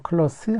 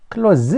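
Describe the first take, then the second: First: The word ends in a hissing s sound. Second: The word ends in a buzzing z sound. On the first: It is used as an adjective. "클로스 하면은 이제 형용사죠" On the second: It is used as a verb. "클로즈 하게 되면 동사가 되겠고"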